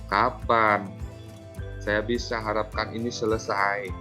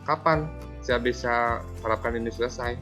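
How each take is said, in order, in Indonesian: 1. Nadanya menyalahkan dan membuat merasa bersalah. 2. Nadanya santai dan ramah. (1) "Sebagai pembuat rasa bersalah" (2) "eh sebagai teman"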